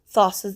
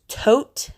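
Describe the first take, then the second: First: The name begins with a TH sound. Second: The name begins with a plain T sound. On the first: This is the American pronunciation of the name. The speaker calls it wrong. "Thoth is the American way we pronunciate" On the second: This is the Greek pronunciation of the name. The speaker calls it right. "it's pronounced Tot, not Thoth"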